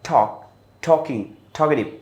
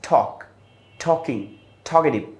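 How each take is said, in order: Both takes have the same delivery.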